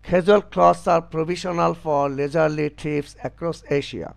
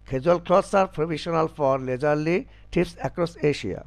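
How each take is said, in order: The two takes are said the same way.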